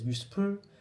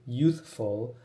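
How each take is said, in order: First: It has Korean-style s and p sounds. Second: It has English th and f sounds. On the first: "a Korean person would pronounce it as Yuspur" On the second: "To play on word on youthful"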